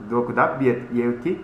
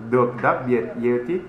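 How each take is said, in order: Both takes have the same delivery.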